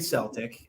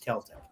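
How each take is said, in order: First: The word begins with an s sound. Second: The word begins with a k sound. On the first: The speaker calls it wrong. "Don't say Celtic" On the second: The speaker calls it right. "Ask any Irish person. It's Celtic"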